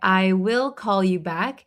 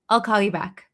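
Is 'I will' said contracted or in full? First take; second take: full; contracted. First: It is said with I will in full. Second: It is said quickly with I will contracted. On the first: "I didn't say I will call you back" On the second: "when we say it very quickly"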